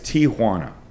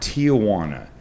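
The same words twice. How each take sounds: First: No extra 'ah' sound follows the first syllable. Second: An extra 'ah' sound follows the first syllable. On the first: The speaker calls it right. "It's Tijuana" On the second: The speaker calls it wrong. "it is not Tijuana"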